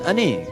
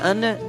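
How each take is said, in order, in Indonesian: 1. Vokalnya condong ke bunyi e. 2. Vokalnya bunyi a terbuka. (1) "dia aneh" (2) "anda anak"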